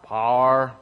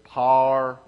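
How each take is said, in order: First: It is said in a southern Missouri accent. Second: It is said in a southern Missouri accent.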